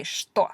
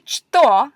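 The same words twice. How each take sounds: First: Что said as shto, softly; the correct что, shto; right pronunciation. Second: Что said the wrong way, a touch louder; the way not to say что; wrong pronunciation. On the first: Teacher showing the correct что, shto. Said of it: "you say что". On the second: Teacher showing the wrong way to say что. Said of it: "you don't say что". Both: Shown as a demonstration.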